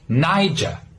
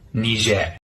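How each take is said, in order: First: It ends with an open, non-rhotic R sound. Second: It is said the French-influenced local way. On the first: "if you're from the U K, you would pronounce it with an open R sound" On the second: "from the local language, which is heavily influenced by the French"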